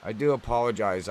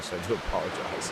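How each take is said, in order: First: Said in the usual way. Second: Quick apology through a laugh. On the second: Real, not acted.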